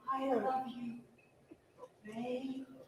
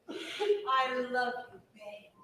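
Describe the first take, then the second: First: It is said softly in a breathy voice. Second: It is said in a plain, normal voice.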